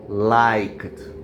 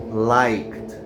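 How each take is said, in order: No difference in how they are said.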